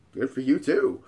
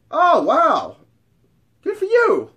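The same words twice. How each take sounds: First: Said in the usual way. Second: High, loud amazed woman; mock impressed. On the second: Hot friend seeing his ID, exaggerated amazement. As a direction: imitate her marvelling at the ID.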